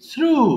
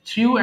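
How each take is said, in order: First: A plain oo vowel follows the r. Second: A y-glide comes before the oo vowel. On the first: The speaker calls it right. "So it must be থ্রু" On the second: The speaker calls it wrong. "থ্রিউ একটা রং word pronunciation"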